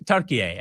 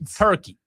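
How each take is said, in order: First: The name has three syllables, ending in 'yeh'. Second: The name has two syllables, English style. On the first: This is how the country's own people say it. The speaker calls it wrong. "Turkey A. I mean, come on" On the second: This is the familiar English name. The speaker calls it right. "Why not just make it easy and say Turkey?"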